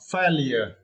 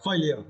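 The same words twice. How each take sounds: First: It is said with an American pronunciation. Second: It is said with a British pronunciation. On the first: "according to uh, American uh, pronunciation" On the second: "If you prefer this uh, pronunciation"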